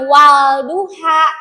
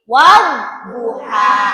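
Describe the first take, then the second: First: The l sound is pronounced separately before d. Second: The l merges into a doubled d sound. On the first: The speaker calls it wrong. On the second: The speaker calls it right.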